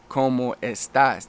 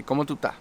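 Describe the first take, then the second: First: "¿Cómo estás?" slow, every word separate; textbook pronunciation. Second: "¿Cómo tú estás?" run together as "cómo tú 'tá"; Puerto Rican pronunciation. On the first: Teacher showing the standard greeting, "¿Cómo estás?" slow and careful. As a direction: spell out "¿Cómo estás?" with full s sounds. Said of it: "they might not say". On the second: Teacher imitating Puerto Ricans, "¿Cómo tú estás?" clipped to "cómo tú 'tá". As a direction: swallow the es and final s in "¿Cómo tú estás?". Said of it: "They might say". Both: Shown as a demonstration.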